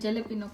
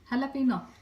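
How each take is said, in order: First: The word begins with a J sound. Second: The word begins with an H sound. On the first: This is how the speaker's own community says it. "અમે જલેપીનો કહીએ" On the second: This is how Americans say it. "America વાળા હાલાપીનો"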